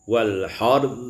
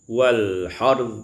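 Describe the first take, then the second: Both takes have the same delivery.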